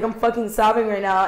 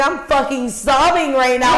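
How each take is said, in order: First: Said in the usual way. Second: Higher, heightened retelling of being in tears; hammed-up emotional exclamation, pitched up; mock sobbing outburst. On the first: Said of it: "'cause I was like". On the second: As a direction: play up being a total wreck. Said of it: "I'm crying".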